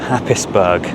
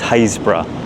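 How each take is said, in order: First: The name is said fully, as it is spelled. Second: The name is said in a shortened local form. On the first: The speaker calls it wrong. "it's not Happisburgh" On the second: The speaker calls it right. "I am pronouncing the name of Haisborough correctly"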